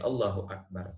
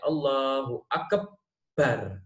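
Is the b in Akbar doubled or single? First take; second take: single; doubled. First: The b in Akbar is said single. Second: The b in Akbar is held and doubled. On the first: The speaker calls it right. "Ba-nya harus tidak ditasydid" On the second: The speaker calls it wrong. "Itu mentasydidkan ba, nggak boleh"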